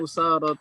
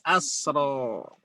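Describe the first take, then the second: First: It begins with u and has a long a after s. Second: It begins with a and has no long vowel after s. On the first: "Di sini yang dihadzaf alif adalah kalimat usara" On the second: "Hamzahnya fathah, as, ... alifnya hilang menjadi asro"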